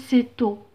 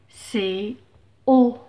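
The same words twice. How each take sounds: First: The t sound links into the next word. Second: The two words stay separate without linking. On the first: The speaker calls it wrong. "on n'a pas dit c'est haut" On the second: The speaker calls it right. "on n'a pas fait la liaison"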